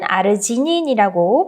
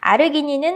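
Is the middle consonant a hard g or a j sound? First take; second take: j sound; hard g. First: The middle consonant is a j sound. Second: The middle consonant is a hard g sound.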